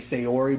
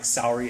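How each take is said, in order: First: A 'y' glide joins the first two vowels. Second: The first two vowels meet with no glide. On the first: The speaker calls it wrong. "When I see her name, I want to say Sayori" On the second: The speaker calls it right. "Saori is how you properly pronounce it"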